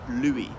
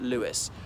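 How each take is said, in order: First: The name is said the French way. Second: The name is said like English 'Lewis'. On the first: "as in the French way" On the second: "I suppose I should pronounce it Lewis"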